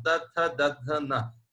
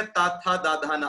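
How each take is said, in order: First: त थ द ध न as short clipped dental syllables, tongue at the tooth root; Vedic dental sounds. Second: ता था दा धा ना with long open आ vowels; modern pronunciation. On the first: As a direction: say त, थ, द, ध, न the old Vedic way, mouth barely open. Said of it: "exactly pronunciation वैदिक संस्कृत में". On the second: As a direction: say ता, था, दा, धा, ना with the whole mouth opening. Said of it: "लेकिन अब हो गया". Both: Shown as a demonstration.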